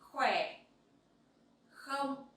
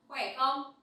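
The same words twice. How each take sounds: First: It is said at a slower pace. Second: It is said at a faster pace.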